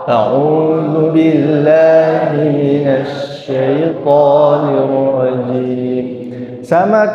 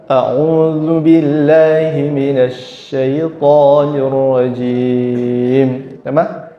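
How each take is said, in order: No difference in how they are said.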